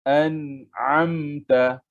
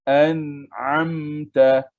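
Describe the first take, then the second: No difference in how they are said.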